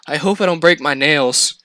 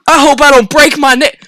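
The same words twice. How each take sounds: First: Said in the usual way. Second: Higher and louder, mock-repeating her words; mocking outrage. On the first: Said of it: "one of the girls goes". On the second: To the girl beside him, mocking her with louder panic. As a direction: throw her worry back at her, exasperated. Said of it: "And I'm going".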